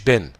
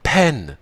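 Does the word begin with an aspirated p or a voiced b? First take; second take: voiced b; aspirated p. First: It starts with a voiced b and no puff. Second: It starts with a p and a strong puff. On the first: The speaker calls it wrong. "اوعى تقول ب، لا كده عملت انت ايه؟ اهتزاز في الاحبال الصوتيه" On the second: The speaker calls it right. "لازم يبقى فيه صوت انفجار شديدة، بنسميها aspirated"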